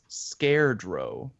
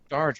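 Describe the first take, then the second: First: The first syllable sounds like 'scare'. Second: The first syllable sounds like 'scar'. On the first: The speaker calls it wrong. "I'm probably going to pronounce it wrong" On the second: The speaker calls it right. "there you go"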